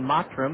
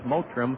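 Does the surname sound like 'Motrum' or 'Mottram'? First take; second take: Mottram; Motrum. First: The surname is said like 'Mottram'. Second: The surname is said like 'Motrum'. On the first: The speaker calls it right. "but it is Alan Mottram" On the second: The speaker calls it wrong. "we were told last year ... his name was pronounced Motrum"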